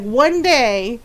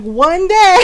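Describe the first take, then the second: First: Restrained warning, imitating a teacher; lightly voiced teacher's threat; mild retold threat. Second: High, loud retold threat; imitated teacher, louder and higher; mock threatening shout. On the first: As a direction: hold the mock threat back. Glaring teacher's threat, first take. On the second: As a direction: raise it into a hammed-up teacher's warning. Glaring teacher's threat, escalated.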